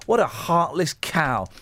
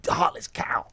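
First: Said in the usual way. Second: Under-the-breath whisper; whispered insult. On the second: Real, not acted. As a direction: hiss it under your breath. Muttered insult at mother.

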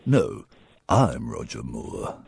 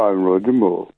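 First: Much lower, slow, quiet Bond voice; Roger Moore impression. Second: Slow, a touch of Roger Moore; lightly voiced suave Bond; Roger Moore impression. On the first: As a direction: show him the proper Roger Moore.

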